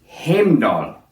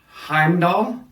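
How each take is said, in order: First: The name is said with Icelandic pronunciation. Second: The name is said with Germanic pronunciation. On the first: "are the Icelandic pronunciations and are more close to the original" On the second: "These are the Germanic pronunciations of these words"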